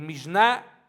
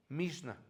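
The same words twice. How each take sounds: First: Mishnah stressed on the final A, drawn out and rising; acento en la A. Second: Mishnah with the stress on MISH, falling on the last syllable; Mishnah mal acentuada. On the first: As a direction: say "Mishnah" as mish-NAA, leaning slowly on the last syllable. (Mishnah con acento en la A final, alargada) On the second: (Mishnah con el acento en la primera sílaba, en voz baja) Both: Real, not acted. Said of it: "porque lleva acento en la A".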